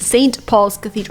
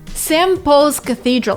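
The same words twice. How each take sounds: First: The N and T are both fully pronounced. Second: The T drops and N becomes M. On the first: The speaker calls it wrong. "It's not" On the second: The speaker calls it right. "T disappears because of elision, but then N is replaced with an M"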